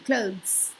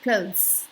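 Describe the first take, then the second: The two takes are said the same way.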